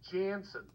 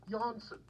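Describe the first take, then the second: First: The name is said in an American way. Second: The name is said in a non-American way. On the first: "if you're American" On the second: "also officially known as"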